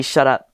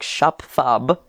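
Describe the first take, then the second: First: Said in the usual way. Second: "Shup thub" mumbled with a lisp, sh and t smeared; garbled shut up. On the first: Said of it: "which is supposed to be". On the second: Shown as a demonstration. Girl mangles "Shup thub" in her garbled speech. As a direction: slur "Shup thub" like a tongue too thick to say shut up. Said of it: "which is supposed to be "shut up," but it came out wrong".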